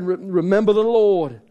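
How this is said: It is said in an attempted Scottish accent.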